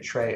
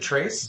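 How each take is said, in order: First: The word ends without an s sound. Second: The word ends with an s sound. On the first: The speaker calls it wrong. "It's Trey, right?" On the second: The speaker calls it right. "you pronounce the, E- the S"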